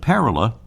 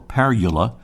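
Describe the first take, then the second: First: The stress is on the first syllable. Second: The stress is on the second syllable. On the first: "the accent is on the first syllable"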